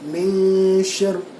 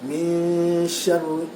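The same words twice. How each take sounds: First: The n is clipped with no nasal hum. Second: The n is hidden in a prolonged nasal hum. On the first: The speaker calls it wrong. "tak nak begitu" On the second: The speaker calls it right. "tengok dia sebut macam mana?"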